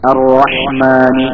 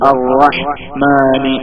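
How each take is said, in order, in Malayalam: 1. ഈ വാക്കിനുള്ളിൽ ഇടവേളയില്ലാതെ ഒഴുകുന്നു. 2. ഈ വാക്കിന് "rah"-നും "mani"-ക്കും ഇടയിൽ ഒരു ഇടവേളയുണ്ട്.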